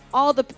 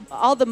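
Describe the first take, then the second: No difference in how they are said.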